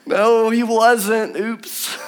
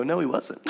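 First: Slow comic drawl. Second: Mock dismay. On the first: Acted. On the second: Mock realisation after jumping.

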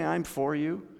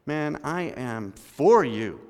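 First: Said in the usual way. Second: "for" drawn out slowly and leaned on; mean every word, "I am for you" slowly; slow stress on for. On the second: Shown as a demonstration. Pastor shows church members the real meaning, slow and stressed. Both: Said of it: "When I say".

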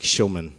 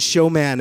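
First: "showman" as SHOW-mun, second syllable weak; right pronunciation. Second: "showman" as show-MAN, second syllable full "man"; wrong pronunciation. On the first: Preacher giving the teacher's real name, "showman" as SHOW-mun. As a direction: say "showman" with a reduced "mun" ending. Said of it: "It wasn't showman". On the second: Preacher correcting the teacher's name, stressed "showman" as show-MAN. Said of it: "it was, like, showman". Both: Shown as a demonstration.

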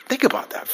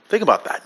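First: Softer, higher echo of the line; quiet. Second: Said in the usual way. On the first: Shown as a demonstration. Pastor repeating it softly to the congregation, quiet. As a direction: let it sink in, gently.

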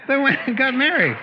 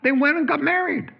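First: Louder, high, ringing repeat. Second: High, loud happy news; excited announcement. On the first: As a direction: hammer the good news home. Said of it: "Uh, they went and got married". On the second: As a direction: announce it with delight. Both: Real, not acted.

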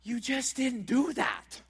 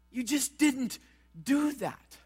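First: Slow and firm on "You just didn't do that."; slow, deliberate "didn't do that"; blunt, slow statement. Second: "You just didn't" then a pause, then "do that."; pause for emphasis. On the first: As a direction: lay it down bluntly and slowly. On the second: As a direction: break it in two with a pause. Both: Shown as a demonstration. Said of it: "I'll make it as blunt as I can".

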